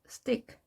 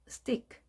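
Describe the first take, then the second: The two takes are said the same way.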